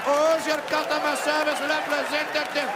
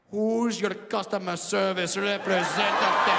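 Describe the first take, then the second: First: Put-on loud, high Indian accent. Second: Slow, soft, mock-sultry Indian accent. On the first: Indian man repeats the line louder in exaggerated Indian accent. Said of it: "I'm Indian". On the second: Indian man whispers mock-sexy in exaggerated Indian accent. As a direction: purr it like a call-centre seduction. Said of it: "whisper something soft and sexy".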